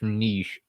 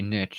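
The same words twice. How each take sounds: First: The vowel is long, as in French. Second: The vowel is short, rhyming with 'riches'. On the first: This is a newer trend. The speaker calls it wrong. "I do not say niche" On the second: This is the long-standing way. The speaker calls it right. "I say niche... I am sticking with American English"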